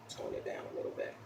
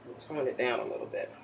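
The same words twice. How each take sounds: First: Soft breathy whisper, no voice. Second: Said in the usual way. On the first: Shown as a demonstration. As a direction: whisper it ASMR style. Repeats phrase, then whispers it.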